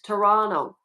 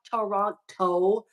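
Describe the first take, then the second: First: The second T is dropped and silent. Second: The second T is clearly pronounced. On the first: The speaker calls it right. "The T is silent. That's the way us Canadians say it" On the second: The speaker calls it wrong. "It's not Toronto"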